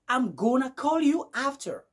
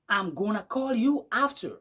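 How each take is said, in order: First: The words are contracted and run together. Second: The same.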